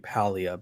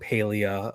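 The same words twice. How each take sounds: First: The first syllable sounds like the word 'pal'. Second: The first syllable does not sound like 'pal'. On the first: This is how people here prefer to name it. "more people would prefer it to be Palia because you play with your pals" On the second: This is how it is named in England. "So England calls it Palia"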